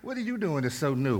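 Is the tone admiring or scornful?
scornful. It sounds scornful and dismissive.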